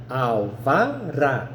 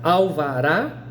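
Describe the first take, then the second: First: "Alvará" drawn out slowly, syllable by syllable, to show final RÁ; stress on last syllable. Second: Said in the usual way. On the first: Shown as a demonstration. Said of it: "é a última". ("Alvará" bem devagar, sílaba por sílaba, destacando o RÁ final) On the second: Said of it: "vou te dar o exemplo".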